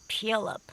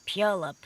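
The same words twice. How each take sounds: No difference in how they are said.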